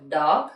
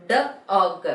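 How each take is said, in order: First: Said in the usual way. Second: "D og" broken into duh, o, guh; sounded out. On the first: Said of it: "you have to repeat after me". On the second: Shown as a demonstration. Teacher leading revision to repeat after, sounded out. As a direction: say "D og" sound by sound, in separate beats. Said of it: "learned the phonic sound of alphabet O".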